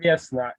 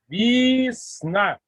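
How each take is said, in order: First: The first vowel is a full e sound. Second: The first vowel is reduced to an i sound. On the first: The speaker calls it wrong. "Non, pas Vesna" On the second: The speaker calls it right. "le E qui n'est pas accentué devient le I"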